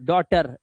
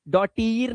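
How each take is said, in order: First: The word ends with a short 'er' sound. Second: The word ends with a long 'eer' sound. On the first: The speaker calls it right. "तो डॉटर होता है" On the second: The speaker calls it wrong. "डॉटीर नहीं होगा"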